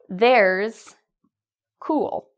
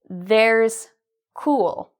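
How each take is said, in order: Both takes have the same delivery.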